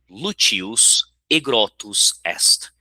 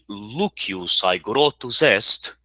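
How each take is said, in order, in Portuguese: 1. O aegrotus começa com uma vogal 'e' simples. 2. O aegrotus começa com um ditongo 'ai'. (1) "pronúncia romana, ou também chamada de pronúncia eclesiástica" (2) "a pronúncia reconstituída"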